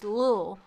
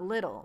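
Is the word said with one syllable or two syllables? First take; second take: one; two. First: The word is said as one short syllable. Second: The word is said as two full syllables. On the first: The speaker calls it right. "It's Lil" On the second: The speaker calls it wrong. "it's not little"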